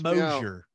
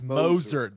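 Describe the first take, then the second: First: The name is said with three syllables. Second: The name is said with two syllables. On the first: The speaker calls it wrong. "so not Mosier" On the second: The speaker calls it right. "but it's Moser"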